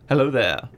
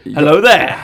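First: It is said in a soft, sensual way. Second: It is said with more punch and energy. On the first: The speaker calls it wrong. "I don't know why I have him saying it in such a sensual way" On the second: The speaker calls it right. "A bit more oomph"

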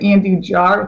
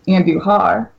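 First: The middle consonant is an English J sound. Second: The middle consonant is a throaty H sound. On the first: This is an Americanized pronunciation. "Americanized, you could say Andujar with a J" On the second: This is the original Spanish pronunciation. "the Spanish version is Andujar"

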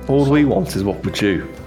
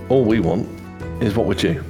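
First: It is said in the character's put-on accent. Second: It is said without the character's put-on accent. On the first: The speaker calls it right. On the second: The speaker calls it wrong.

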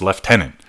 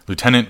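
First: The word starts with 'lef', as in 'lef-tenant'. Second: The word starts with 'loo', as in 'loo-tenant'. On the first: This is the British pronunciation. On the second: This is the American pronunciation.

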